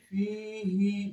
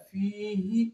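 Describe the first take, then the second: First: فی ہی stretched far too long, slowly; wrong drawn-out vowel. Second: Said in the usual way. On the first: Shown as a demonstration. Teacher demonstrates the wrong, stretched زیر on فی ہی. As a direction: drag out ہی on purpose to show the error. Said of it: "یہ غلط ہے".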